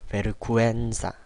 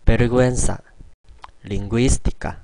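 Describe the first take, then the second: First: Vergüenza drawn out slowly inside the sentence; slow first take. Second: Vergüenza said again louder, gu-en split clearly; clear repeat take. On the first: Teacher's first slow try at vergüenza, slow demo. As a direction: ease through vergüenza slowly. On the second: Teacher repeating vergüenza for learners, louder clear demo. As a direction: hit vergüenza crisply, the gü as gu-e. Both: Shown as a demonstration. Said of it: "다시 발음하도록 하겠습니다".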